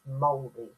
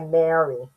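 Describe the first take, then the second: First: It is said with the native Māori pronunciation. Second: It is said with a common anglicized pronunciation. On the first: This is how it should be said. The speaker calls it right. "the correct pronunciation is Māori" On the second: This is how most people say it. The speaker calls it wrong. "Most people say Maori, but it's not"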